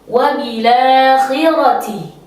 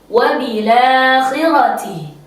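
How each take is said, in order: The two takes are said the same way.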